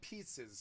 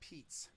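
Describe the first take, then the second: First: The word is said with two syllables. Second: The word is said with one syllable. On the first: The speaker calls it wrong. "It's not pizzas" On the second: The speaker calls it right. "It's Pete's"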